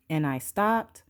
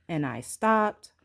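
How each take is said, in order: Both takes have the same delivery.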